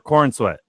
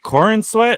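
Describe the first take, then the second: First: The first part has one syllable, Corn. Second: The first part has two syllables, Cor-in. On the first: "I've been saying David Corn Sweat" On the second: "is it Corin Sweat or Corn Sweat?"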